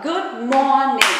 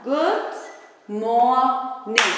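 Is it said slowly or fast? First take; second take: fast; slowly. First: It is said fast. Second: It is said slowly.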